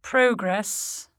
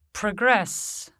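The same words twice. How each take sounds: First: "progress" as a noun, PROH-gress; full first vowel in "progress", weight on PRO; stress on first syllable. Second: "progress" as a verb, pruh-GRESS; stress on second syllable. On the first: Teacher shows the noun, "progress" stressed on PRO. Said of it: "stressed on the prefix". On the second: Teacher shows the verb, "progress" stressed on GRESS. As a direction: say "progress" as pro-GRESS, falling. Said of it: "stressed on the stem". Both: Shown as a demonstration.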